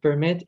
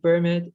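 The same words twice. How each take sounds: First: PerMIT, strong closing syllable; verb-style "permit"; "permit" with light per; stress on second syllable. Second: PERmit, strong opening syllable; noun-style "permit"; "permit" with light mit; stress on first syllable. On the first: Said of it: "the stress is on the second syllable". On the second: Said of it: "the stress is on the first syllable". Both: Shown as a demonstration.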